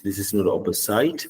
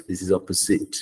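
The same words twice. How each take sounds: First: Opposite ending in site, oppo-site; wrong opposite. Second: Opposite ending in a short sit, oppo-sit; correct opposite. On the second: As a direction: model opposite with a short end. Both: Shown as a demonstration.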